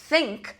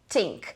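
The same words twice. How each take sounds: First: It begins with a voiceless TH sound. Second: It begins with a T sound. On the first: "O som de T H desvozeado"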